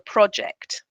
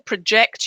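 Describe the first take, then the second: First: The stress is on the first syllable. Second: The stress is on the second syllable. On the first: It is used as a noun. "if it's a noun, the stress is on the first syllable" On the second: It is used as a verb. "if it's the verb, the stress is on the second syllable"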